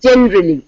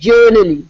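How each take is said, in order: First: The first syllable sounds like 'jen'. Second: The first syllable sounds like 'jur'. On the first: The speaker calls it right. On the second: The speaker calls it wrong.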